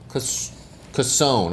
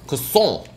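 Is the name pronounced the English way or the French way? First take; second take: English; French. First: The name is pronounced the English way. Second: The name is pronounced the French way.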